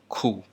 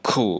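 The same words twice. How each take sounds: First: The first consonant is soft and gentle. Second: The first consonant is hard and forceful. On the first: The speaker calls it right. "A little bit softer" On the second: The speaker calls it wrong. "Not ka or cool"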